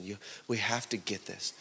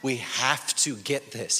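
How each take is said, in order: First: Low, very soft urging; quiet, earnest plea to the congregation; hushed appeal. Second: "We have to get this" slow and deliberate; "We have to get this" drawn out firmly at full voice; emphatic appeal. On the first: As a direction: say it low and under your breath. First, hushed take of repeated appeal. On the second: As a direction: lean on each word of "We have to get this". Repeats the appeal slowly, with emphasis. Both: Real, not acted.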